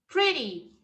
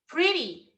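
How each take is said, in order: Both takes have the same delivery.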